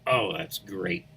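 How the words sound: It is said in a displeased, unhappy tone. The speaker is not pleased about what happened. "you'd know right away I wasn't too happy with whatever happened"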